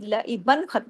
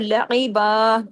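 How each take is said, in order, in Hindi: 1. शब्द 'an' की ध्वनि पर खत्म होता है। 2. शब्द एक साधारण लंबे 'a' पर खत्म होता है। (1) "दो जबर की लईबन नहीं पढ़ा जाएगा" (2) "अगर रुकेंगे तो"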